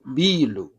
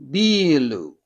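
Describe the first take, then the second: First: "biru" with a short clipped i, meaning building. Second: "biru" with a long stretched i, meaning beer; long biiru. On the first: Teacher showing the short vowel for building. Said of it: "short one sound vowel". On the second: Teacher showing the long vowel for beer. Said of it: "beer is". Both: Shown as a demonstration.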